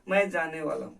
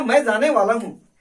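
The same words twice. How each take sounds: First: It is said in a reluctant, compelled tone. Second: It is said in a happy, eager tone.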